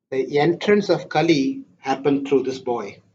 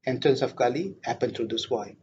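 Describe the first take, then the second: First: Said in the usual way. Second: Quiet repeat. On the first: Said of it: "repeated for emphasis". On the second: Shown as a demonstration. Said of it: "repeated softly".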